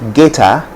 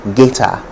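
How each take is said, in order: First: It is said with a Ghanaian English accent. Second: The same.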